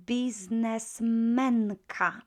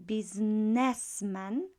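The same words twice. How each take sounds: First: Businessmenka slow, stress on men; accent shift. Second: Businessman stressed on biz; accent shift. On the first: Teacher showing stress moving in Businessmenka. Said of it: "the accent would shift". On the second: Teacher contrasting businessman stress. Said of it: "next to the last syllable". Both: Shown as a demonstration.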